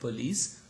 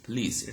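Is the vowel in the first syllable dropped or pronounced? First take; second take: pronounced; dropped. First: The first syllable keeps its weak vowel. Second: The first syllable's weak vowel is dropped. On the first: "instead of police" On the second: "so there is no schwa"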